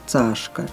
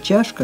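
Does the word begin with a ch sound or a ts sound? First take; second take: ts; ch. First: The word begins with a ts sound. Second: The word begins with a ch sound. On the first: "как «цашка»" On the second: "слово «чашка»"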